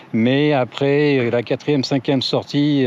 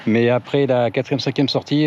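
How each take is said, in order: First: Slow, weighty "Mais après la quatrième, cinquième sortie"; slow emphasis. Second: Said in the usual way. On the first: Shown as a demonstration. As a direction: drag out "quatrième, cinquième" to stress them. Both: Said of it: "alors je parle pas de sortie qui dure".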